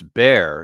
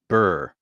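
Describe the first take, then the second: First: The vowel sounds like the one in 'air'. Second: The vowel sounds like the one in 'fur'. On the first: The speaker calls it right. "it's bear" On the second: The speaker calls it wrong. "He's just mispronouncing it burr"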